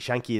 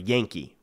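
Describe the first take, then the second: First: The word begins with a 'sh' sound. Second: The word begins with a 'y' sound.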